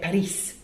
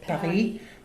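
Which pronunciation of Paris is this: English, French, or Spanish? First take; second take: Spanish; French. First: It is said with a Spanish pronunciation. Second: It is said with a French pronunciation. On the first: "click on Spanish" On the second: "Click on French"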